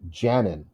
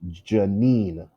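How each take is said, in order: First: The stress is on the first syllable. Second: The stress is on the second syllable. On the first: The speaker calls it wrong. "Is the first syllable stressed?" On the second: The speaker calls it right. "Second syllable is stressed"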